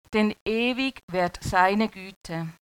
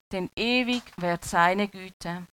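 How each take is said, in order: No difference in how they are said.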